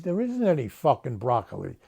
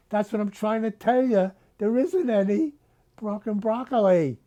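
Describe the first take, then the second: First: Said in the usual way. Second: Higher, exasperated yell of "There isn't any fucking broccoli"; exasperated outburst. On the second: Acted. Grocer Tony yells at Missus Russo, exasperated and higher. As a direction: blurt "fucking broccoli" up high, at the end of his rope.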